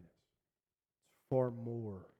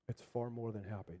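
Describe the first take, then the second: First: Far drawn out slowly and held, quiet; stress on far. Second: Said in the usual way. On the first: Shown as a demonstration. Preacher lingering on far for the congregation, slow stress. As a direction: lean slowly into the word far. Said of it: "repeated phrase, slowed". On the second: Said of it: "repeats phrase, then stresses it".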